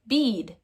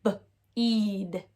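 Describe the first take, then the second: First: Said in the usual way. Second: "B-eed" split into buh, then long eed; sounded out, long E. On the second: Shown as a demonstration. Teacher trying the long E first, sounded out slowly. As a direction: separate the B, then stretch "eed". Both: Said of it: "Let's try the long E sound first".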